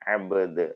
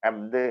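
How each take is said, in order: First: The b is released with a slight bounce. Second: The b is closed flat with no release. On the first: The speaker calls it right. "വ്യക്തമാക്കിയിട്ടാണ്" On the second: The speaker calls it wrong. "എന്ന് വായിക്കൂല"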